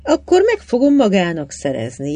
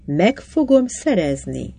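First: Said in the usual way. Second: Slower, with "fogom" leaned on; "Meg fogom szerezni" slowed, stress on "fogom"; repeated firmly. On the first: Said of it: "jelentette ki Tarvin egyszerűen". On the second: A narrator's reading. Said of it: "ismételte Tarvin".

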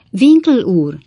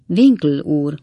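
First: WINKLE ÚR echoed higher and louder; emphatic repeat. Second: Said in the usual way. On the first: A narrator's reading. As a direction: repeat „Winkle úr” loudly, pitched well up. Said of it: "ismételte Pott".

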